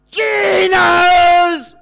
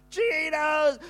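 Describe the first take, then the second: First: Big, high cheering yell of the shop name; kids' cheer. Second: Put-on excited kids' shout. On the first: Retold or imitated. Grandkids cheering their Saturday treat with a loud, high yell. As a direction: shout it like an overjoyed grandchild at the end of the countdown. Kids finish weekday countdown cheer. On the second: Grandkids burst in shouting.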